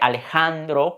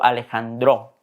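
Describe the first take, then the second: First: The stress is on the second-to-last syllable. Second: The stress is on the last syllable. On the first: This is the usual Spanish pronunciation. "que es una palabra grave" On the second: This is how a native Tzotzil speaker says it. "como nativo hablante y pensando desde el tzotzil digo"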